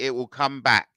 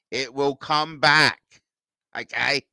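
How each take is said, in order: First: Said in the usual way. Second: Slow, drawn-out "It will come back"; slow reassurance. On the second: Real, not acted. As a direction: stretch out each word to reassure. Slow emphatic repeat of reassurance.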